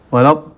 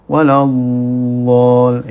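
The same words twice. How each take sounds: First: The final sound stops short without flowing voice. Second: The final sound flows on slowly with voice. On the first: The speaker calls it wrong. "tidak benar" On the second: The speaker calls it right. "itu ya"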